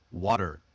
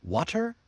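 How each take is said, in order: First: Relaxed American flap in water. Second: WATER with a crisp T, high rising; hard, clear T in water, like a question. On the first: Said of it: "sound that's almost like D". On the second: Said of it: "Try it one way". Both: Shown as a demonstration.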